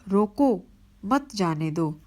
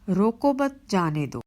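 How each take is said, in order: First: The pause comes after the first word. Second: The pause comes after the second word. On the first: Stop the person from going. "रोकने का संकेत है।" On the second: Let the person go. "ये जाने का संकेत दे रहा है।"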